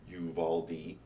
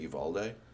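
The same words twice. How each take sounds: First: The name is said plainly, without an accent. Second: The name is said with a put-on accent. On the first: "the phonetic pronunciation is like Uvalde" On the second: "Sounds more authentic, like a pop-up accent"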